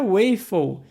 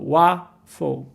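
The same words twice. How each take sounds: First: The first vowel is a closed sound. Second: The first vowel is an open A sound. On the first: The speaker calls it wrong. "a pronúncia não é waffle" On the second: The speaker calls it right. "o som tem esse A agudo"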